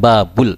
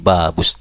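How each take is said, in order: First: The article is pronounced with a clear L sound. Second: The article's L assimilates into a doubled S sound. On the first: The speaker calls it wrong. "bukan babul" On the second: The speaker calls it right. "tapi babus"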